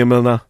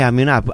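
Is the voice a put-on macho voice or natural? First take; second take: macho; natural. First: It is said in a put-on macho voice. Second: It is said in his natural voice.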